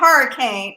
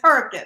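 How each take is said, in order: First: It is said fully, like the storm word. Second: It is squeezed into two short syllables. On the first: The speaker calls it wrong. "it's not hurricane" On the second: The speaker calls it right. "it's Herkin"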